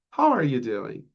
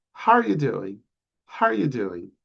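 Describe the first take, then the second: First: Said in the usual way. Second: "How are you doing?" squeezed to "howya doin'"; fast American reduction. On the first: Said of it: "Americans, when they're speaking fast". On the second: Shown as a demonstration. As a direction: rush it like a casual American. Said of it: "when they're speaking fast".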